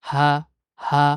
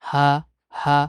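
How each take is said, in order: The two takes are said the same way.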